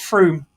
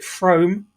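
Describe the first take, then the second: First: The vowel sounds like 'oo'. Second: The vowel sounds like 'oh'. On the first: The speaker calls it right. "apparently it's Froome. It needs an extra O" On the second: The speaker calls it wrong. "I will always resolutely call it Frome"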